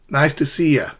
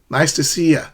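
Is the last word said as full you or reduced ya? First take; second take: reduced ya; reduced ya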